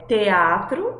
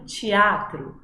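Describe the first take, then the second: First: The first sound is a plain t. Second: The first sound is a ch-like sound. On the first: This is how it is said in some regions. "ou té, quando eu digo teatro" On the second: This is how it is said in other regions. "em outros do Brasil eu posso acabar dizendo teatro"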